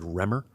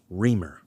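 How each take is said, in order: First: The first vowel sounds like 'eh'. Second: The first vowel sounds like 'ee'. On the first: This is how the speaker used to say it. The speaker calls it wrong. "I always said Remer" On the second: This is how local viewers say it. The speaker calls it right. "according to the comments, uh, it's Reamer"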